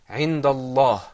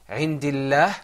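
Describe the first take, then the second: First: The L sound is thick and heavy. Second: The L sound is thin and light. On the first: "that lam is mufakham" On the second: "and عندillah it is so so fine"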